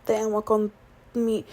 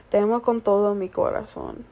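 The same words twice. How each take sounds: First: Halting, losing the words; stumbling. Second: Said in the usual way. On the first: Real, not acted. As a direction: trail off mid-phrase confused. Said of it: "oh my gosh, hold on, wait". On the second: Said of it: "grew up speaking both languages".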